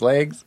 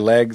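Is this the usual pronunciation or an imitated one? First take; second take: imitated; usual. First: The word is said with an altered vowel. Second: The word is said the usual way. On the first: This imitates someone else's way of saying it. "She says legs" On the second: This is the speaker's own way of saying it. "I say legs"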